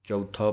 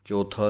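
First: ਚੌਥਾ with the aunkar vowel, chau-tha, clearly sounded; correct pronunciation. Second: ਚੌਥਾ said the careless way, as the wrong example; wrong pronunciation. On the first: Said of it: "ਚੱਚਾ ਊੜੇ ਔਂਕੜ ਥੱਥੇ ਕੰਨਾ". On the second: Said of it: "ਚੌਥਾ ਨਹੀਂ ਕਹਿਣਾ". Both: Shown as a demonstration.

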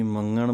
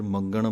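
First: ਮੰਗਣ with the g dropped, only the nasal ng; ਮੰਗਣ said with a ਙ sound, no g; wrong pronunciation. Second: ਮੰਗਣ with a clear g sound in the middle; ਮੰਗਣ said as mangan with the g heard; correct pronunciation. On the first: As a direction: demo the common mistake, ਮੰਗਣ as manan. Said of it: "ਙੰਙੇ ਦੀ ਆਵਾਜ਼ ਕੱਢ ਦਿੰਦੇ ਹਨ". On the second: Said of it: "ਧਿਆਨ ਰੱਖਣਾ ਹੈ ਗੱਗੇ ਦੀ ਆਵਾਜ਼ ਆਵੇ". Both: Shown as a demonstration.

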